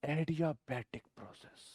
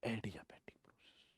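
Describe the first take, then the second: First: Soft naming. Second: Whispered, much softer term; whispered as a teaser. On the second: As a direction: breathe the term like a secret. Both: Shown as a demonstration. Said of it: "क्या बोलूंगा मैं?".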